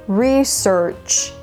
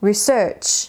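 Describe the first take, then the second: First: The stress is on the first syllable. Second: The stress is on the second syllable.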